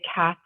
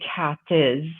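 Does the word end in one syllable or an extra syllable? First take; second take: one syllable; extra syllable. First: It ends with a plain s sound, one syllable. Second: It ends with an added es syllable. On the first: The speaker calls it right. "We just say the sound at the end of it" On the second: The speaker calls it wrong. "we don't say cat is with the es sound"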